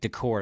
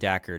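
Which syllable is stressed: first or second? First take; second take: second; first. First: The stress is on the second syllable. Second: The stress is on the first syllable. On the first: The speaker calls it right. "That's how they're pronouncing it" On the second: The speaker calls it wrong. "I've been putting my emphasis on the wrong wrong part of the word"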